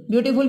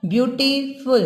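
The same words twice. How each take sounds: First: Said in the usual way. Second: "ब्यूटीफुल" split as "ब्यूटी", pause, "फुल"; syllable by syllable. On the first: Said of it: "में दो syllable हैं". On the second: Shown as a demonstration. Teacher showing syllables to students, "ब्यूटीफुल" broken before "फुल". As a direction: break "ब्यूटीफुल" into two separate chunks. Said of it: "बोल के देखिए आप".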